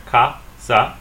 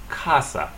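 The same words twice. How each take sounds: First: "casa" as two separate beats, ca, sa; split into syllables. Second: "casa" as KAH-sa, falling on the second syllable; "casa" joined up, first syllable stressed. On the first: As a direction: break "casa" in two with a gap. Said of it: "We split it right here". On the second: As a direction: lean on "ca" in "casa". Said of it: "stress the next to the last syllable". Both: Shown as a demonstration.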